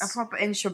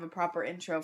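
First: It is spoken in a British accent. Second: It is spoken in an American accent.

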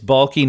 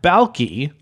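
First: The name ends without an 'ee' vowel. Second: The name ends with an 'ee' vowel. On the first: The speaker calls it right. "It's Balke" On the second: The speaker calls it wrong. "not Balke, like the guy from Perfect Strangers"

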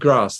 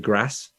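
First: It is said in a southern, London-style accent. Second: It is said in a Leicester accent. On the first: "instead of saying grass" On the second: "they say grass"

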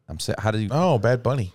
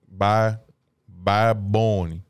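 First: Both words are said fully and separately. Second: The words run together and drop final sounds.

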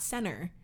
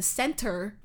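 First: The middle T sound is dropped. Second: The middle T sound is clearly pronounced. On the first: The speaker calls it wrong. "not center" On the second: The speaker calls it right. "It's actually the Center for the Performing Arts"

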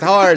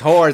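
First: The word is said loudest, nearly yelled. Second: The word is said louder than before. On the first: "she has to keep yelling the word louder" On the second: "she has to keep yelling the word louder"

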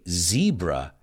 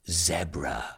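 First: It is said the American way. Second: It is said the British way. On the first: "So we say zebra" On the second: "and they say zebra"

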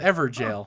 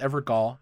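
First: The last syllable is said like 'jail'. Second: The last syllable is said with a hard g, 'gol'. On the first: The speaker calls it right. "so Everjail" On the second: The speaker calls it wrong. "So I thought it was Evergol"

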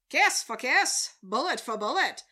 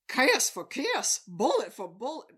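First: It uses an old-fashioned announcer style. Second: It uses a Southern American accent. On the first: "instead of the mid-century voice" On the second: "maybe I should do a Southern voice. It's like"

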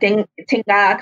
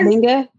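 First: The word starts with a T sound. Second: The word starts with a D sound. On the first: The speaker calls it right. "It is like Tinga kind of thing" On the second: The speaker calls it wrong. "it's not Dinga?"

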